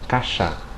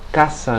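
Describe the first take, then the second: First: The s is made with the tongue tip raised. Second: The s is a plain hissing s.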